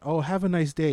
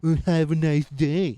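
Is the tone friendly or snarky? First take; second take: friendly; snarky. First: It is said in a sincere, friendly tone. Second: It is said in a snarky, rude tone. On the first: A polite, kind farewell. "what seems to look like the nice answer" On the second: A rude, mocking dismissal. "he delivers it like"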